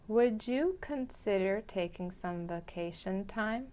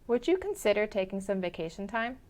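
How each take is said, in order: First: It is spoken a little more slowly than normal. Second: It is spoken at a normal conversational speed. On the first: "the second time a little slower" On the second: "the first time at a normal pace"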